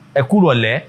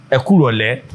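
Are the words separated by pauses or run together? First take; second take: run together; run together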